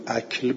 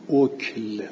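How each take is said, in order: First: اکل said "akl", first vowel an open short a; اکل read as akl, a then k and l. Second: اکل said "okl", first vowel a short rounded o; اکل read as okl, o then k and l. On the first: Teacher gives the alternative reading to students, akl with a. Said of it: "یا اکل بخونیم". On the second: Teacher reads the first variant to students, okl with o. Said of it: "اگر که اکل بخونیم". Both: Shown as a demonstration.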